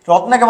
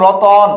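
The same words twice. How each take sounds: First: Said in the usual way. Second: রতন with an o between t and n, "ro-ton"; inserted middle vowel. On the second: Shown as a demonstration. (ত আর ন-এর মাঝে অ দিয়ে "রতন") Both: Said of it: "অন, অট আসলো".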